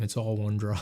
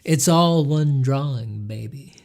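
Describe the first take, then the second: First: It is said in a plain normal voice. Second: It is said in a silly hippie voice.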